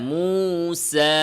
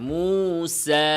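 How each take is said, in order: No difference in how they are said.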